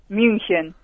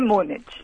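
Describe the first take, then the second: First: The name has a German pronunciation. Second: The name has a Spanish pronunciation. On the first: "¿y en alemán?" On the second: "en español Múnich"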